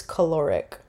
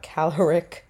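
First: "caloric" stressed on the middle syllable, kuh-LOR-ic; "caloric" as kuh-LOR-ic, settled falling tune; correct pronunciation. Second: "caloric" stressed on the first syllable, CAL-er-ic; slowed "caloric" with stress up front, CAL-er-ic; wrong pronunciation. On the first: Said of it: "how to say the word". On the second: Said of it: "not caloric". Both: Shown as a demonstration.

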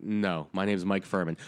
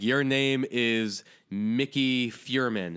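First: Said in the usual way. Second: Slow, deliberate "Mickey Furman" with two syllables in Mickey; mock mispronunciation. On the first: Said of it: "And I'm like". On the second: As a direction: insist on saying Mickey as MICK-ee. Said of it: "that's like you being like".

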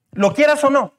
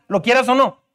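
First: "Lo quieras o no" repeated higher and stressed; preacher repeats the warning to the congregation, emphatic. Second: Said in the usual way. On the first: Shown as a demonstration. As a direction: drive the warning home on the repeat.

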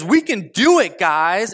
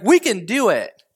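First: Higher, louder rallying call; fired-up rally. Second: Underwhelming, deadpan rally line; flat pep talk. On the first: Caleb rallying the Israelites, loud and eager. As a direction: pump the crowd up with it. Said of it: "So Caleb says". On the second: Caleb to the people, a limp unconvincing rally. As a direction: say it like a speech that falls flat. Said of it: "he's like". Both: Retold or imitated.

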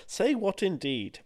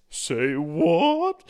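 First: Knowing drawl. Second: Loud, high, rising surprise; hammed-up double take; mock astonishment. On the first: Pretend. Slow knowing follow-up.

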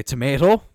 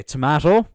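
First: "tomato" said tuh-MAY-toh, rising at the end; long "may" in the middle of "tomato"; others' pronunciation. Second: "tomato" said tuh-MA-toh, rising at the end; own pronunciation. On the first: Host showing what some people say, "tomato" as tuh-MAY-toh. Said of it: "some people say". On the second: Host giving their own way, "tomato" as tuh-MA-toh. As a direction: open a in the middle of "tomato". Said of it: "I say". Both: Shown as a demonstration.

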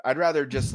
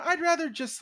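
First: Said in the usual way. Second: High, whiny inner voice. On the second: Retold or imitated. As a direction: whine it much higher. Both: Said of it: "part of me is like".

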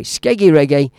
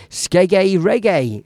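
First: Said in the usual way. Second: Drawn-out mock Southern accent; Southern English accent. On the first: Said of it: "as we say in the Midlands". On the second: Quoting mate Vinny on Skeggy Reggae, Southern English accent. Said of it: "I love that southern accent".

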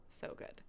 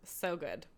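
First: Whispered echo of so good; soft unvoiced repeat. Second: Said in the usual way. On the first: Real, not acted. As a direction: breathe it, no voice. Repeated, second take whispered.

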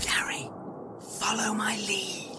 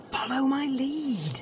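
First: Secretive whisper, barely voiced. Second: Slow, drawn-out insistent undertone; insistent whisper. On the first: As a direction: whisper it so the captor can't hear. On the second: Acted. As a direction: repeat it slowly and softly, stretching each word. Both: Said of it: "What are you whispering about?".

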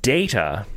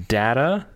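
First: "data" said DAY-tuh; DATA as "dayta". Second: "data" said DAT-uh, rising at the end; DATA as "datta". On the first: Naming the Star Trek character, "data" as "dayta". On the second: Explaining a personal rule for the word, "data" as "datta". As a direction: say "data" with a short A as in "cat". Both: Shown as a demonstration. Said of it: "just the pronunciation".

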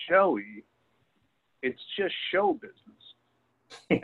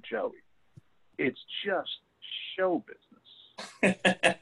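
First: Slow, high-pitched, drawn out "show business"; lightly voiced older woman soothing Joey. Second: High, very slow, drawn-out "show business"; emphatic older woman. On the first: Coach's wife telling Joe Namath it's just show business, slow and high. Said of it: "she said". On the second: Retold or imitated. Older woman emphatically telling Joey it's just show business, slow and high. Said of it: "grabbed him really emphatically and said".

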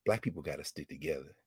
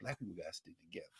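First: Hushed, low close-to-the-ear murmur; quiet confiding line; soft quote. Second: Very soft, fast, low; hushed quote. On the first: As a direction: say it softly into her ear. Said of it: "then she said in my ear". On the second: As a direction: let it fall away almost to nothing. Repeats the quote, wondering. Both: Retold or imitated.

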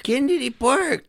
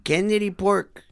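First: Park said clearly with an ar sound, high and slow; defiant correction to Park, said as if that's what was said; corrected Park. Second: Pork said with an o sound, like pork the meat; mispronounced park as Pork. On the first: Shown as a demonstration. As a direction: stretch out Kennedy Park, high and deliberate. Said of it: "Okay, that's what I said". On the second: Real, not acted. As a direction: say Kennedy Pork with the vowel of pork.

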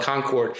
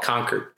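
First: Concord said as CON-CORD; full second syllable. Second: Concord said as KONK-erd; reduced second syllable. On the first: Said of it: "in California they would call it". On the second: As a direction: make Concord sound like "conquered". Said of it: "here they would call it". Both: Shown as a demonstration.

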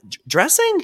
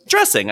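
First: "dressing" stammered and pitched way up as a question; questioning echo. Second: Said in the usual way. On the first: Retold or imitated. Retelling a puzzled reply to an old patient, "dressing" as a high rising question. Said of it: "I was like". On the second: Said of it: "He goes".

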